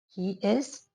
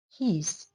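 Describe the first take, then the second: First: It is said as two separate full words. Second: It is squeezed into one short syllable.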